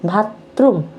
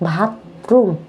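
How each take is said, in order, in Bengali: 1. শব্দটি শ্বাসযুক্ত bh ধ্বনি দিয়ে শুরু হয়। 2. শব্দটি শ্বাসযুক্ত bh ধ্বনি দিয়ে শুরু হয়।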